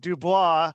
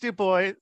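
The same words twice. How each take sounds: First: The name is said in a fancy way. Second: The name is said in a plain way. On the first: The speaker calls it wrong. "I tried to be all fancy and pronounce it Du Bois" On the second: The speaker calls it right. "but it's Du Bois"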